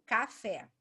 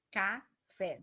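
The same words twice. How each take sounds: First: Said in the usual way. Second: "café" split slowly into ca... fé; syllable by syllable. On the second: Shown as a demonstration. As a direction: say "café" in two separated syllables. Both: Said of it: "duas sílabas".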